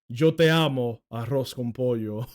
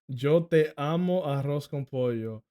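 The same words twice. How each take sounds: First: There is a pause after amo. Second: It runs on with no pause after amo.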